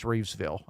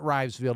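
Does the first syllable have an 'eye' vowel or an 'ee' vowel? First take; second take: ee; eye. First: The first syllable has an 'ee' vowel. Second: The first syllable has an 'eye' vowel. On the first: The speaker calls it right. "it's Reevesville" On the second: The speaker calls it wrong. "It is not Rivesville"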